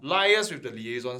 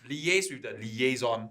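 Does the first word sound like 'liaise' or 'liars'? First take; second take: liars; liaise. First: The first word sounds like 'liars'. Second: The first word sounds like 'lee-aze'. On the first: The speaker calls it right. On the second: The speaker calls it wrong.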